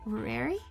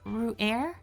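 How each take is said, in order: First: The name ends with an ee sound. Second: The name ends with an r sound. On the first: "but there's an I at the end" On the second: "I pronounce his name as Ru'er"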